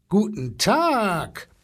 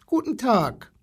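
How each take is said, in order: First: Slow, drawn-out elephant greeting, swooping up high; blustering elephant. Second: Put-on high little-boy hello; small boy's greeting. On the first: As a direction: boom a long hello like an elephant. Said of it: "polterte der Elefant". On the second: Small boy greets the zoo animals. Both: A narrator's reading.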